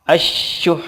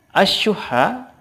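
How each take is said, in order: First: The ending is a pressed, breathy final consonant. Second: The word ends with a final vowel.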